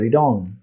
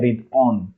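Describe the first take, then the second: First: The two words are linked together. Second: The two words are said separately. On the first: "orang bule suka menyambung jadi read on" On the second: "orang kadang kita bacanya read on"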